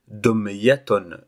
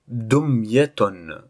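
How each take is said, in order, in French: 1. Le mot est prononcé à un rythme normal. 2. Le mot est prononcé plus lentement.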